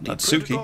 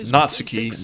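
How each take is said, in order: First: The stress is on a later syllable. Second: The stress is on the first syllable. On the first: The speaker calls it wrong. "not Natsuki" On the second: The speaker calls it right. "you put emphasis on the first syllable, so it's Natsuki"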